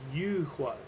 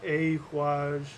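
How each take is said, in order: First: The word begins with an intense 'oo' vowel. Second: The word begins with an open 'ah' vowel. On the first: The speaker calls it right. "It's the U tree. It's u huaj" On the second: The speaker calls it wrong. "it's not a huaj. You know, that's not it"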